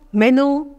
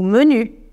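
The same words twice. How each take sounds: First: It is pronounced the Spanish way. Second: It is pronounced the French way. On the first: "usamos algunas palabras en español" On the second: "Ahora las voy a leer en francés"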